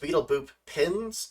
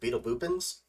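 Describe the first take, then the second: First: Boop and pins are said as separate words. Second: Boop and pins run together as one word. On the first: This is the name's actual form. "It's Beetle Boop Pins" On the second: This is the speaker's habitual version. "but I always just pronounce it Beetle Boopins"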